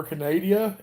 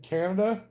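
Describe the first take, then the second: First: "Canada" said playfully as "ca-NAY-dia"; playful mispronunciation. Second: Said in the usual way. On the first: Shown as a demonstration. Streamer teasing Canadian viewers, "Canada" mispronounced as "ca-NAY-dia". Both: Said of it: "as I sometimes like to say it".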